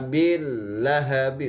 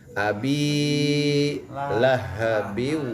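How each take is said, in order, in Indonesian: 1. Vokal 'bi' pendek, langsung lanjut. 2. Vokal 'bi' ditahan panjang sebelum lanjut. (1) "salah lah. Jangan di langsung" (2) "Panjang, dua harkat"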